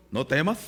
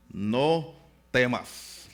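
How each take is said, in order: First: Said in the usual way. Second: "No temas" stretched out very slowly, each syllable held; slow and solemn. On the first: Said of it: "lo que significa cuando Dios te dice". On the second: Shown as a demonstration. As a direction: draw out "No temas" like a solemn promise. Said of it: "me encantan esas palabras". ("No temas" muy lento y solemne, alargando cada sílaba)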